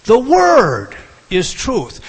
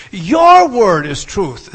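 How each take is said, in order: First: WORD stretched long, high and loud; stress on WORD. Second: YOUR shouted high and drawn out; stress on YOUR. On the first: Preacher demonstrating the emphasis, heavy stress on word. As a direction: boom out a long WORD, then drop down on truth. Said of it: "He is emphasizing the word "word". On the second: Preacher demonstrating the equal emphasis, heavy stress on your. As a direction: boom out a long YOUR at the front. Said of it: "equally with the word "your". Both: Shown as a demonstration.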